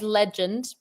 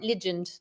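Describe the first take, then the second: First: It is said with an Australian accent. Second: It is said with a New Zealand accent. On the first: The speaker calls it right. "Australian way is legend" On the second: The speaker calls it wrong. "but you've got legend"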